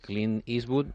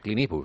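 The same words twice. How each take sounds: First: It is said without an Andalusian accent. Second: It is said with an Andalusian accent.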